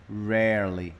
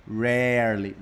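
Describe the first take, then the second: Both takes have the same delivery.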